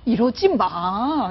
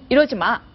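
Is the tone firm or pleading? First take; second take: pleading; firm. First: It is said in a soft, begging tone. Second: It is said in a stern, resolute tone. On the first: It is a plea asking them to stop. The speaker calls it wrong. "약간 사정하는 느낌?" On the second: It is a stern warning to stop. The speaker calls it right. "좀 단호하게"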